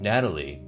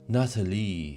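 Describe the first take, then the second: First: The name is pronounced the usual English way. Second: The name is pronounced the French way. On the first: "he doesn't say Natalie" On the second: "he says Natalie, French pronunciation"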